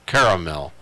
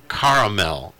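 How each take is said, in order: First: "Caramel" with first vowel as in "care"; alternative pronunciation. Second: "caramel" with an open "ah" first vowel; alternative pronunciation. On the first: Host looking up a word, trying the "care-a-mel" pronunciation. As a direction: say "Caramel" as KAIR-uh-mel, three syllables. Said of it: "Scott was pronouncing it caramel". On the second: Host looking up a word, trying the "car-a-mel" pronunciation. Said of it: "I pronounce it caramel". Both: Shown as a demonstration.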